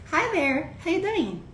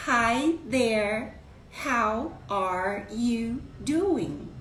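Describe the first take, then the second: First: Quick, run-together Hi there how you doing; greeting slurred into one breath; connected fast greeting. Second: Very slow, each word separated. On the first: Teacher greets the live audience, fast and run together. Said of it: "Porque eu falei". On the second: Teacher shows the greeting slowly, word by word. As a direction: spell out how are you doing slowly. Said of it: "ninguém fala palavra por palavra pausadamente". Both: Shown as a demonstration.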